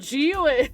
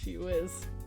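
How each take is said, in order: First: It is said in an exaggerated, mocking tone. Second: It is said plainly, without mockery.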